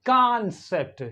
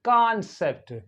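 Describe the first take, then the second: First: American accent, with an open 'ah' vowel. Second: The same.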